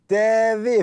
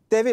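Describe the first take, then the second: First: The syllables are drawn out long. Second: The syllables are said short and quick. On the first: It gives a friendly, sunny effect. "on peut aussi allonger les syllabes" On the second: It simply invites someone to look at something. "On peut dire T V pour simplement inviter quelqu'un à regarder quelque chose"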